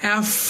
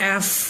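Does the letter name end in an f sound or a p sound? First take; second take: f sound; f sound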